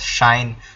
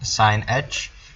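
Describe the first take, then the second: First: It is said as one syllable, shine. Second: It is said as two syllables, sine and aitch. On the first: "we pronounce this as shine" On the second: "you simply put an h next to it"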